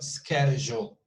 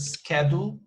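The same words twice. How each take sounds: First: The middle j sound is clearly present. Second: The middle j sound is missing. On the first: The speaker calls it right. "but schedule. J" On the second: The speaker calls it wrong. "you missed this one. So it's not schedule"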